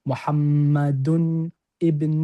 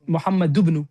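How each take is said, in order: First: A glottal stop separates the two words. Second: The two words run together without a glottal stop. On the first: The speaker calls it wrong. "You cannot say that" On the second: The speaker calls it right. "You could directly join it with the ba"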